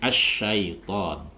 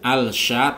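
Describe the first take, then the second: First: The l sound merges into a doubled sh. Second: The l sound is heard before the sh. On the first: The speaker calls it right. "tapi asyaiton" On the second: The speaker calls it wrong. "jangan al sya"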